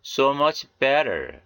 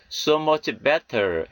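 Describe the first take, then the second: First: Slow model reading, 'better' with a tapped T; American flapped T. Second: 'better' with a clear hard T; unlinked T. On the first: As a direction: flap the T in 'better', slowly. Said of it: "현상을 적용하여". ('better'의 T를 ㄹ처럼, 천천히) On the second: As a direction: say 'better' with the T fully released, not flapped. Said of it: "미국식 발음은 연음". ('better'의 T를 또렷한 ㅌ로) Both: Shown as a demonstration.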